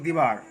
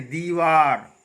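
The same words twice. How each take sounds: First: दीवार with a short, quick first i; wrong pronunciation. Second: दीवार with a long ee in front; correct pronunciation. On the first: Teacher quoting how we say it, wrong pronunciation. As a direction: hurry the first vowel of दीवार. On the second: Teacher correcting students' slip, correct pronunciation. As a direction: stretch the first vowel of दीवार. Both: Shown as a demonstration. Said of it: "दीवार नहीं".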